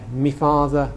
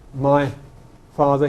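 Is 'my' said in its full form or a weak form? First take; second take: weak; full. First: The word 'my' is reduced to 'me'. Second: The word 'my' has its full vowel. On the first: "he says me dad, me father" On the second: "he doesn't say my father"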